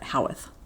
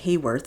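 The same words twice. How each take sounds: First: The name is said with the local Yorkshire pronunciation. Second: The name is said with an outsider's pronunciation. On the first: The speaker calls it right. "in Yorkshire they pronounce it Haworth" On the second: The speaker calls it wrong. "I always said Haworth before I knew how to say it"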